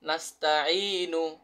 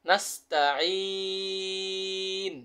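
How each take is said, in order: First: The word ends with a short 'u' vowel. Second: The word ends on 'n' without a vowel. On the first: The reading continues without stopping. "নুন পেশ নু" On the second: The reader stops at the end of the verse. "অক্ফ করিলে"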